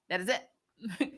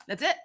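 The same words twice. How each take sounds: First: "That is it" said slow and much softer, each word separated; slow, soft emphatic repeat. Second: Said in the usual way. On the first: Real, not acted. Streamer settling the point with chat, slow soft emphasis on "That is it". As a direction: drop the volume and spell out "That is it" word by word.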